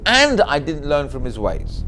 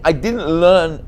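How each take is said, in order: First: "and I didn't learn from his ways" with the weight on "and"; stress on and. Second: "I didn't learn" said slowly, leaning on "learn"; slow stress on learn. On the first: A rabbi showing the added word, stress on "and". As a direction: lean on "and", then read on slowly. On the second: A rabbi weighing the plain phrase, stress on "learn". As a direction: stretch out "I didn't learn", land on "learn". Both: Shown as a demonstration. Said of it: "What extra are you adding by saying".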